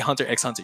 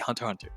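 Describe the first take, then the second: First: The letter X is said aloud between the words. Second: The letter X is left out between the words. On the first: The speaker calls it wrong. "You don't say Hunter x Hunter" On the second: The speaker calls it right. "You say Hunter x Hunter. The X is silent"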